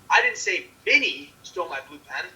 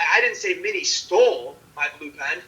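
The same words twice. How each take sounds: First: The stress is on the word Minnie. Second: The stress is on the word stole. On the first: Someone else stole the pen. "That someone else stole the blue pen" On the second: She did something else with it, like borrowing. "Put the emphasis on stole"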